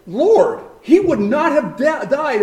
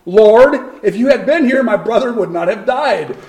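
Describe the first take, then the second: First: Lord, he would not have died, pitched higher, an aching reproach; as if Mary pleads in her heart, a touch raised; inner plea. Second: A grieving sister's loud cry of Lord, then a half-laughing lament; Mary's plea to Jesus. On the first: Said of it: "in her heart". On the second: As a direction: call out Lord, then mock-mourn the rest. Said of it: "the same exact words that Martha said". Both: Retold or imitated.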